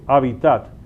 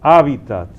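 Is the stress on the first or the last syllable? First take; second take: last; first. First: The stress is on the last syllable. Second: The stress is on the first syllable. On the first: The speaker calls it wrong. "algunos quizás por influjo del francés lo pronuncian agudo" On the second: The speaker calls it right. "respetemos un poquito la acentuación en latín"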